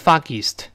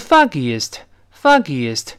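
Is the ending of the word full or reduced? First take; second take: reduced; full. First: The est ending is reduced or merged. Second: Foggy is followed by a full est ending. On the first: The speaker calls it wrong. "而不能读成foggiest" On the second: The speaker calls it right. "先读foggy，然后后面还有个east，所以foggiest 是这么一个声音"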